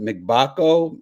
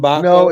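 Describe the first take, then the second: First: The name begins with a 'mick' syllable. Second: The name begins with a plain 'm' sound. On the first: The speaker calls it wrong. "Is it McBako?" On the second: The speaker calls it right. "I've always heard and pronounced it M M Mbako"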